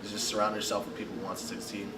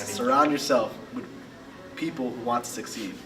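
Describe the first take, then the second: First: It is said at a normal volume. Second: It is said at a louder volume.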